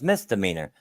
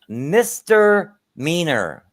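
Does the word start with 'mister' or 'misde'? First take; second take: misde; mister. First: The word starts with a 'misde' sound. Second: The word starts with a clear 'mister' sound. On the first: The speaker calls it right. "it's like no, it's misdemeanor" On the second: The speaker calls it wrong. "she would say Mister Mister Meaner"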